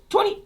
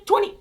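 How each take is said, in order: Both takes have the same delivery.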